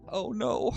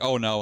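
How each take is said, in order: First: It sounds sincerely worried, not mocking. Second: It sounds sarcastic and mocking. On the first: A moody evening is genuinely expected. The speaker calls it right. "she knows I'm gonna be moody" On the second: The concern is not meant seriously. The speaker calls it wrong. "in like a sarcastic sense"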